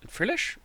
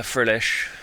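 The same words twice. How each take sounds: First: Frillish? with a sharp high rising tune; puzzled question. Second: Said in the usual way. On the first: Real, not acted. Catching his own slip mid-commentary, Frillish? asked with a high rise. Doubts the card he named.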